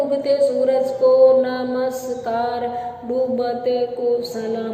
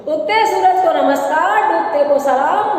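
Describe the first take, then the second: First: Slow, dragged-out monotone. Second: Big sing-song showman's patter; magician's patter tone. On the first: Teacher showing how the magician would drag if unhurried, very slow. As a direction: draw every word out slowly. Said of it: "मैं धीरे धीरे बोलूँ". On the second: Street magician greeting the crowd before the show, big patter tone. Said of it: "बड़ी tone यही होती है". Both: Shown as a demonstration.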